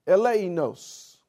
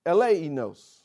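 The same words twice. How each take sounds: First: Eleinos slow, weight on the final syllable; slow eleinos with the final syllable stressed; stress on last syllable. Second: Eleinos with weight on the final syllable; eleinos, final syllable stressed; stress on last syllable. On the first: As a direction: land hard on the end of eleinos. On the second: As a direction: hit the end of eleinos. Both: Shown as a demonstration. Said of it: "the emphasis being at the end".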